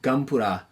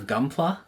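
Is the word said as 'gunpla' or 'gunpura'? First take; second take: gunpura; gunpla. First: It has a vowel-split R-like sound: gunpura. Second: It has a clear L sound: gunpla.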